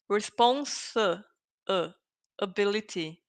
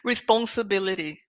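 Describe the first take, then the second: First: The word is drawn out in separate exaggerated parts. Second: The word is said smoothly at a normal pace. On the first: "I am exaggerating" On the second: "So you know how to pronounce it"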